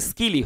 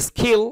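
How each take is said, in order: First: স্কিলই with a plain unpuffed k; unaspirated k, correct. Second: স্কিল as "s-khil", with a puff on k; aspirated k, wrong. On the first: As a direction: say স্কিলই with no breath after k. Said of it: "এটা স্কিলই হবে". (স্কিলই, খ নয়, ক ধ্বনি) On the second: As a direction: overdo the breath after k in স্কিল. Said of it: "খ উচ্চারণ হবে না". (স্কিল, ক-কে খ-এর মতো করে) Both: Shown as a demonstration.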